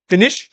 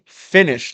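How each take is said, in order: First: The stress is on the second syllable. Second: The stress is on the first syllable. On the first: The speaker calls it wrong. "she would say finish" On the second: The speaker calls it right. "the stress is on the, the first syllable"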